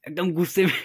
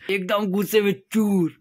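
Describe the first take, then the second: First: Said in the usual way. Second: Laughing. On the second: Real, not acted. Laughing to viewers about how angry his friend got. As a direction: repeat it through a real laugh.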